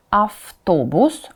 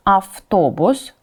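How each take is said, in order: Both takes have the same delivery.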